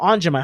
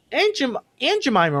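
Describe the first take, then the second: First: "Aunt" as "ahnt", a broad vowel; "Aunt Jemima" said as "Ahnt Jemima"; "ahnt" pronunciation. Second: "Aunt" with a short a, as in cat; "Aunt Jemima" said as "Ant Jemima"; "ant" pronunciation. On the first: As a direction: say "Aunt" with an open ah. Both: Shown as a demonstration. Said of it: "how do you say it? Aunt, Aunt".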